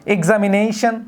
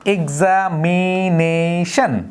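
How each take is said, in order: First: Said in the usual way. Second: examination very slow, ex-am-i-na-tion split apart; syllable by syllable. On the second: Shown as a demonstration. Teacher slowly splitting examination for the class. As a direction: stretch out each beat of examination. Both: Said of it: "যেমন আমরা যদি বলি".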